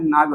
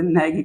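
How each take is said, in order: First: The vowel sounds like the 'a' in father. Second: The vowel sounds like the 'a' in bag. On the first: "मैं नाग वैसे कह रहा हूँ" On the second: "ऐसे नैग कहते हैं"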